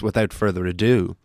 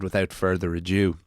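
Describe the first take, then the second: First: The last word ends with a 'doo' sound. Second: The last word ends with a 'dew' sound. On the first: The speaker calls it right. "it's A D O" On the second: The speaker calls it wrong. "like D E W"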